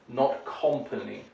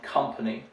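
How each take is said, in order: First: The first syllable sounds like 'com'. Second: The first syllable sounds like 'cum'. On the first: The speaker calls it wrong. "It's not a com like dot com" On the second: The speaker calls it right.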